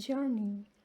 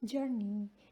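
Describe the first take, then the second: First: It is said in an American accent. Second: The same.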